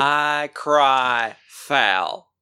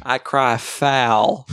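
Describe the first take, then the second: First: Very slow and drawn out; slower dramatic declaration. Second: Drawn-out and slow; slow dramatic declaration. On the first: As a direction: drag each word out slowly. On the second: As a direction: stretch every word slowly. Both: Acted.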